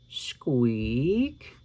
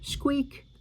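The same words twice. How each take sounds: First: It imitates the squeak of a door. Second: It imitates the squeak of a mouse.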